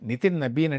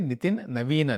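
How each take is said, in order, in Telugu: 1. రెండవ పేరు b శబ్దంతో మొదలవుతుంది. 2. రెండవ పేరు v శబ్దంతో మొదలవుతుంది.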